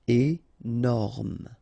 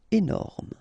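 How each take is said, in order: First: "Énorme" split into é, then norme; syllable by syllable. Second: Said in the usual way. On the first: Shown as a demonstration. French teacher showing learners the parts, "Énorme" syllable by syllable. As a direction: pause after the first syllable of "Énorme".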